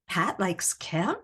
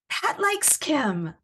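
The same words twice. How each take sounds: First: It is said as a question. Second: It is said with excitement. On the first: The speaker is asking something. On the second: The speaker is thrilled by the news.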